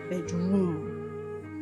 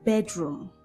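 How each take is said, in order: First: The stress is on the second syllable. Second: The stress is on the first syllable. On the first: The speaker calls it wrong. "and not bedroom" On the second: The speaker calls it right. "What you should say is bedroom"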